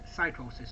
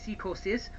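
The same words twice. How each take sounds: First: The name is said with an American pronunciation. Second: The name is said with a Mexican pronunciation. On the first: "The American t- uh, pronunciation" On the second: "the Mexican pronunciation"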